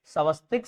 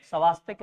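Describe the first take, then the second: First: स्वस्तिक with short a, स्व-स्-तिक; correct Swastik. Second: स्वास्तिक with long aa, स्वा-स्-तिक; wrong Swastik. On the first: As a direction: say स्वस्तिक as svastik, no long aa. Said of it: "स्वस्तिक शब्द है". (स्वस्तिक में छोटा अ, सही उच्चारण) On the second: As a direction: stretch the aa in स्वास्तिक as a wrong form. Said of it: "स्वास्तिक नहीं है". (स्वास्तिक में लंबा आ, गलत उच्चारण) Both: Shown as a demonstration.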